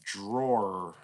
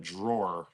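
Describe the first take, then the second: First: "drawer" avec un R final bien prononcé, façon New York. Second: Said in the usual way. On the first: Shown as a demonstration. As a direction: say "drawer" ending on a clear R, New York style. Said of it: "E R at the end of words". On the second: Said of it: "instead of drawer".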